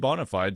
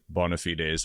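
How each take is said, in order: First: The phrase is given an English-style pronunciation. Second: The phrase is given a Latin-style pronunciation. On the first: "if you're speaking English like a normal person" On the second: "you could pronounce it bona fides"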